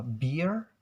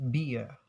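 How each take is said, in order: First: "beer" with the final r sounded; American R sound. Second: "beer" as bee-uh, no r; R-less British pronunciation. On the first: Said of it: "become beer". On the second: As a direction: drop the r from "beer", British style. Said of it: "they will avoid to pronounce the R sound". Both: Shown as a demonstration.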